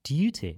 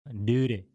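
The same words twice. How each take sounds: First: It is said in a posh British accent. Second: It is said in an American accent.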